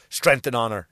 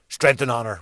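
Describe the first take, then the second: First: Lower, mock-solemn salute; sarcastic. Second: Mock solemn. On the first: Joking with friend Timmy, sarcastically solemn. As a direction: say it sarcastically, as a joke. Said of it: "like sarcastically". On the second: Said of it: "we say, like fucking idiots".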